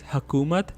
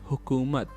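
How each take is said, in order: First: The first vowel sounds like 'a'. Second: The first vowel sounds like 'u'. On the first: The speaker calls it wrong. "this word is usually mispronounced as hakumat" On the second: The speaker calls it right. "the pronunciation of for this word is"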